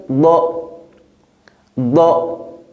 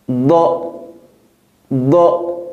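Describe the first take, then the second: Both takes have the same delivery.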